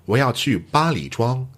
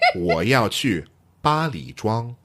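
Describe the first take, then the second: First: It is said crisply at a normal pace. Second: It is said very slowly and deliberately. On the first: "in my best, crispest announcer voice" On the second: "very slowly"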